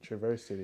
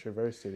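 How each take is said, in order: First: It is said with the Southern pronunciation. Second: The same.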